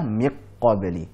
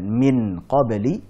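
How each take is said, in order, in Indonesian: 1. Huruf n sepenuhnya menyatu dengan q. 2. Huruf n diucapkan penuh dan jelas. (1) "bukan pula miq qabli" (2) "Bukan min qabli"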